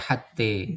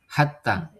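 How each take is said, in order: First: The final vowel is tilted toward e. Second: The final vowel is a plain open a. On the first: The speaker calls it wrong. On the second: The speaker calls it right.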